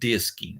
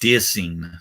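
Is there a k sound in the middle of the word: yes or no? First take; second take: yes; no. First: The word has a k sound before the ending. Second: The word has no k sound before the ending. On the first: The speaker calls it wrong. "not disking" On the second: The speaker calls it right. "Dissing, not disking"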